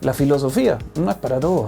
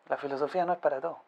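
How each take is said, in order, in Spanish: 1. Se dice con voz más alta. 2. Se dice con voz más baja. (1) "con ese mismo tono de voz" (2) "Quizás era un poco más bajito"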